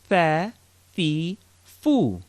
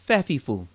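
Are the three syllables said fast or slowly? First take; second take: slowly; fast. First: The syllables are said slowly and separately. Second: The syllables are run together quickly.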